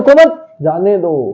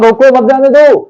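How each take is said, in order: First: There is a pause right after 'mat'. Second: There is a pause right after 'roko'. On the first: Do not stop him, let him go. "उसने क्या समझ लिया" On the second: Stop him, do not let him go. "मैंने कहा था"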